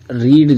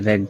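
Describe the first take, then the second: First: The vowel is long, as in 'reed'. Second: The vowel is short, as in 'red'. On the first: It is the base form of the verb. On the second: It is the past form of the verb.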